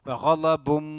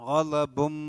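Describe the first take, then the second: Both takes have the same delivery.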